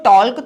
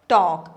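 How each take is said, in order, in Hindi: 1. यह शब्द L की आवाज़ के साथ बोला जाता है। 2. यह शब्द बिना L की आवाज़ के बोला जाता है। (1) "मैंने इसको talk थोड़ी बोला है" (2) "Here, L is silent"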